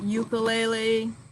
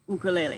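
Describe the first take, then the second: First: The u vowels have a 'yoo' sound. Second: The u vowels have a pure 'oo' sound. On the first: The speaker calls it wrong. "It's not ukulele" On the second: The speaker calls it right. "the correct pronunciation is ukulele"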